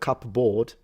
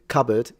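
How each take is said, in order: First: The second syllable's vowel is full and unreduced. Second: The second syllable's vowel is short and reduced. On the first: "instead of" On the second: "vowel core shortening, like when you say cupboard"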